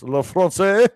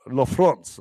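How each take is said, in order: First: French accent with a rising end on "France"; "La France" in a French accent, lifting the end; hesitant French accent try. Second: French accent with the line falling at the end; self-conscious French accent try. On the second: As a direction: practise "La France" in a French accent, ending low. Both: Shown as a demonstration. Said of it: "My French accent".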